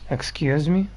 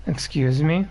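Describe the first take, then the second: No difference in how they are said.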